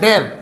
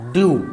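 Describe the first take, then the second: First: It is said like 'dev', ending in v. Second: It is said like 'dyoo', ending in yoo. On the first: The speaker calls it wrong. "इस हिसाब से हम देखेंगे तो हमें इसे पढ़ना पड़ेगा डेव, लेकिन इसको डेव नहीं पढ़ा जाएगा" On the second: The speaker calls it right. "इसको हम लोग बच्चों पढ़ेंगे ड्यू"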